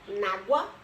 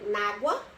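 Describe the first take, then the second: The two takes are said the same way.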